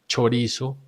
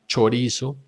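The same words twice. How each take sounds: Both takes have the same delivery.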